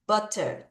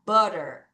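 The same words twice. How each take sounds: First: Butter with a crisp, true T sound; careful butter, T released instead of flapped; butter with clear T. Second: Relaxed butter, the T flapped; flapped American butter. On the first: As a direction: fully pronounce the T in butter. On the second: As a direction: say butter as "budder". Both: Shown as a demonstration. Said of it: "두 가지 가능합니다".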